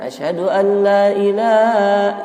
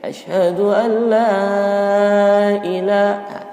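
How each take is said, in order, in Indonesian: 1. Vokal pada ilah dibaca panjang. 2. Vokal pada la dibaca panjang. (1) "Jangan asyhadu an la ilaha, ilahnya dipanjangin" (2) "la empat harokat"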